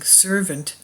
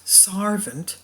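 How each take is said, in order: First: The first vowel sounds like the vowel in 'sir'. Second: The first vowel sounds like the vowel in 'car'. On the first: This is the modern pronunciation. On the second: This is the older pronunciation of ordinary people.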